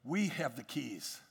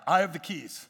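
First: "We" leaned on, said slowly and low; stress on we. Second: "I" stressed as the key word. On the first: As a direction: land on "We" as the point. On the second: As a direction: hit "I" to make it personal. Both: Shown as a demonstration. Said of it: "Write that down".

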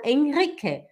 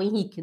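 First: Henrique with a sounded German R, "en-REE-ke". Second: Henrique with R as an h, "en-HEE-ke"; Brazilian Henrique. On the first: Mother naming her son among Germans, Henrique with sounded R. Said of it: "dos alemães eu falo Henrique". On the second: Mother naming her son among Brazilians, Henrique with h-like R. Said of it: "dos brasileiros eu falo Henrique". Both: Shown as a demonstration.

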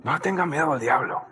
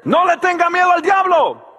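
First: Lower, much softer and fast; murmured echo of the shout; quiet repeat. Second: Booming call against fear; shouted warning. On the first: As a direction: drop it to a quick hushed aside. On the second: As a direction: shout it out to the whole church. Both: Acted. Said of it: "repeats line, second time quietly".

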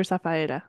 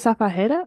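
First: "Safaera" with vowels run together, no h; Safaera without an H. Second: "Safajera" with the j said as a breathy h; Safajera with an H sound. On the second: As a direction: say "Safajera" as sa-fa-HEH-ra. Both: Shown as a demonstration. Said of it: "Is it Safajera or Safaera?".

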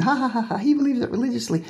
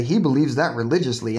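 First: Mocking fake laugh, pitched far up and quicker. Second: Said in the usual way. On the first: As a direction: sneer it out through a put-on chuckle. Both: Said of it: "I know people say".

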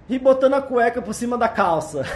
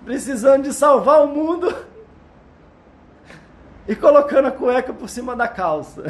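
First: Laughing. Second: Laughing while speaking; giggling through the words. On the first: Laughing at own superman joke. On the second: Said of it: "tô chorando de rir aqui". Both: Real, not acted.

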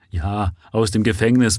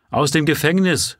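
First: Said in the usual way. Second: Shouted. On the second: Acted. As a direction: yell it out in scorn. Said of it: "schrie eine der Frauen".

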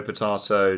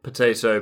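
First: Potato with a broad ah, po-TAH-to; British potato. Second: Potato with a long ay, po-TAY-to; American potato. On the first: Showing Americans and Brits differ, British potato. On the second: Showing Americans and Brits differ, American potato. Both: Shown as a demonstration. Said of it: "how Americans and British people differ".

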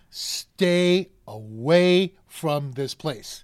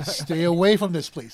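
First: "stay away" stretched out very slowly; emphatic warning. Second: "Stay away from this place" run together, firmly; quicker, firm repeat with AWAY stressed; brisk warning. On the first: Warning husbands off the place, slow and emphatic. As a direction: draw out STAY and AWAY, word by word. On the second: Warning husbands off the place, brisk and firm. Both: Real, not acted.

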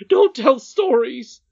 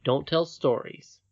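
First: Loud, high, drawn-out rebuke; rude cry. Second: Slow, measured princess quoting the nurse; unangry quoting. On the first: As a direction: snap angrily at the child, stretching the words. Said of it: "cried her nurse quite rudely". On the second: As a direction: repeat the rebuke evenly, without shouting. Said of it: "did not feel at all angry". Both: Acted.

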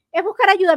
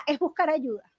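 First: Buscar hit higher and louder, the whole phrase louder; stress on buscar. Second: Said in the usual way. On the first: Shown as a demonstration. To her listeners, restating the last tool with stress on buscar. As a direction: repeat it, leaning hard on buscar.

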